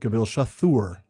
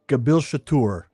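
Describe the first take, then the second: First: The 'th' is a single th sound. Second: The 'th' is a t followed by h. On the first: The speaker calls it wrong. "There is no T H sound in Kuzdul" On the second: The speaker calls it right. "the T H ... is pronounced ... like a T H as two separate consonants"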